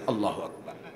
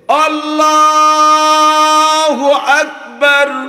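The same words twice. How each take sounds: First: It is said quickly and clipped short. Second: It is drawn out slowly, like the imam.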